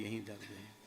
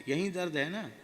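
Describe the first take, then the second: First: Meek quiet reply. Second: Kindly guru asking. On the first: Disciple answers guru meekly. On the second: Guru touches painful spot. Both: Retold or imitated.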